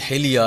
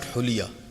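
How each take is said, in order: First: The first vowel is an i sound. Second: The first vowel is a u sound. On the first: The speaker calls it right. "This is hilya" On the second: The speaker calls it wrong. "But this is not huliya"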